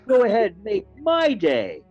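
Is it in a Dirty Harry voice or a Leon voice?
Leon. It is said in Leon's voice.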